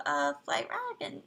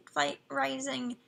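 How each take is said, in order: First: "Flight Dragon" said by mistake in plain voice; slip of the tongue. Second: "Flight Rising" said slowly, stress on "Flight"; careful correction. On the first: Streamer naming the game, slips and says "Flight Dragon". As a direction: mix the names, say "Flight Dragon" without noticing. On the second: Streamer fixing a slip, says "Flight Rising" slowly and carefully. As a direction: correct yourself, "Flight Rising", slow and deliberate. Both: Shown as a demonstration. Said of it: "I just said Flight Dragon".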